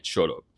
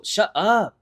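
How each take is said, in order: First: Low, flat "Shut up." in a gruff dude voice; deep macho "Shut up." instead of the bratty one; manly shut up. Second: High, loud whiny "Shut up," with a bratty snap; bratty "Shut up," aimed at a girlfriend. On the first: Shown as a demonstration. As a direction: drop the voice and say "Shut up." like a tough guy. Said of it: "I'ma say it like that so I could be a fucking man". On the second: Retold or imitated. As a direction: toss off "Shut up," like a bratty little sibling. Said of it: "to Sophia like that in that tone".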